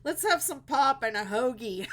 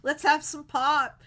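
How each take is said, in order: First: Words pushed out through real laughter, louder; laughing. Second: Pittsburgh "pop" called out loud and higher, hammed up; loud mock Pittsburgh. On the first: Real, not acted. Joking with Pittsburgh viewers, laughing through the words. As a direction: crack up while saying it. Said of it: "I'm cracking myself up". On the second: Hosting Pittsburgh viewers, a loud hammed-up Pittsburgh call. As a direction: belt it like a proud Pittsburgh local. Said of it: "That's a Pittsburgh thing".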